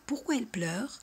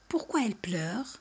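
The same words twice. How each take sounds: First: "pourquoi elle pleure?" with the voice climbing on "pleure"; rise at the end. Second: Said in the usual way. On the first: Shown as a demonstration. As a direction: lift "pleure" at the end of the question. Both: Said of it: "subimos la voz al final".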